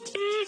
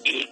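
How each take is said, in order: First: It sounds terrified. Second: It sounds angry.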